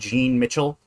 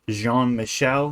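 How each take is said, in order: First: The second name has a hard 'ch' sound. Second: The second name has a soft 'sh' sound. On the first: The speaker calls it wrong. "not Jean Mitchell" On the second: The speaker calls it right. "It's Jean-Michel"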